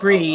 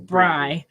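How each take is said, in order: First: The vowel sounds like 'ee'. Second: The vowel sounds like 'eye'. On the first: The speaker calls it right. "The pronunciation of Brie" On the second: The speaker calls it wrong. "not Bry"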